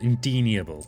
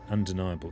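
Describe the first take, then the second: First: The word begins with the sound 'in'. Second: The word begins with the sound 'un'. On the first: The speaker calls it wrong. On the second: The speaker calls it right.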